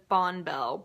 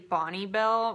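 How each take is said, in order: First: The first part is said as one syllable, Bon. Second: The first part is said as two syllables, Bonnie. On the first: This is how people say it where the speaker grew up. The speaker calls it wrong. "Where I'm from, everybody says Bonbell" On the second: This is what the speaker believes the real name is. The speaker calls it right. "I think it's actually Bonnie Bell"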